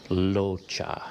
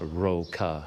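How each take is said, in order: First: The name begins with an L sound. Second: The name begins with an R sound. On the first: The speaker calls it right. "It actually has more of an L sound" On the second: The speaker calls it wrong. "it's not Roca at all"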